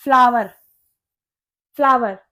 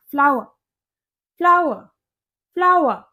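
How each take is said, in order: First: फ्लावर with clear v and final r; common pronunciation. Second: फ्लावर as "FLAA-wa", final r dropped; Indian English pronunciation. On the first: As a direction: say फ्लावर as "FLAA-var". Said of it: "ज्यादातर लोग इसको फ्लावर बोलते हैं". (फ्लावर में "व" और "र" साफ़) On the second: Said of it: "Indian accent में इसको फ्लावर पढ़ा जाता है". (फ्लावर को "फ्लाव-अ", आख़िरी "र" छोड़कर) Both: Shown as a demonstration.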